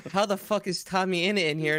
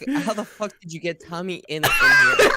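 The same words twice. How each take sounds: First: Said in the usual way. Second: Laughing, then shouting the last words high and loud; shocked disbelief. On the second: Retold or imitated. Friend retelling his shock at seeing a lookalike, laughing yell. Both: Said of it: "I was like".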